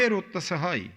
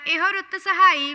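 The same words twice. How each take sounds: First: ਇਹ said short, without an o at the end; correct reading. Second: ਇਹੋ said with a final o sound; misread vowel. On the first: Shown as a demonstration. Teacher correcting the student, a short ਇਹ with no o at the end. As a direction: cut ਇਹ short, no added vowel. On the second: Real, not acted. Student misreading the hymn, an added o at the end of ਇਹੋ. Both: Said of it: "ਇਹ ਤੇ ਔਂਕੜ ਤਾਂ ਹੈ ਨਹੀਂ".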